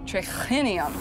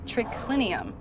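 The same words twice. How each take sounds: First: The c sound is followed by a breathy h. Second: The c sound is plain, with no h. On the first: The writer was not a native Latin speaker. "triclinium has an H in it, so it would be pronounced triclinium" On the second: This is how native Latin speakers said it. "instead of triclinium"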